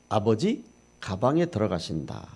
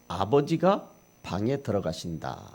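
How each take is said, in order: First: The break comes before 가, after 아버지. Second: The break comes after 가, before 방.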